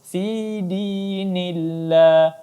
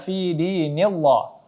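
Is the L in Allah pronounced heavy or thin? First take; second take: thin; heavy. First: The L in Allah is thin and light. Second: The L in Allah is heavy and dark. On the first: The speaker calls it right. "tapi kita baca tipis" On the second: The speaker calls it wrong. "Tidak kita baca"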